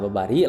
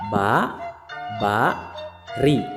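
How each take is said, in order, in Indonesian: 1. Kata itu diucapkan dengan lancar tanpa jeda. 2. Setiap suku kata diucapkan terpisah dengan jeda singkat.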